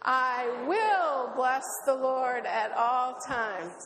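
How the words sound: The stress is on "will".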